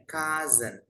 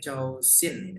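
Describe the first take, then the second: First: "cousin" said as "KAZ-en"; correct pronunciation. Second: "Chow Sin", two separate syllables read as written; spelling pronunciation. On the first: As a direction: model "cousin" with a z in the middle. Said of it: "Tapi bacanya cousin". ("cousin" dibaca "ka-zen") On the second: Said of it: "Tulisannya Chow Sin". ("Chow Sin", dibaca sesuai tulisan) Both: Shown as a demonstration.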